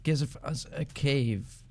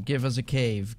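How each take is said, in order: First: Slow, stretched-out words; half-speed, deliberate begging; drawn-out plea. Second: Said in the usual way. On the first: Real, not acted. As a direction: spell out the plea word by word, very slowly.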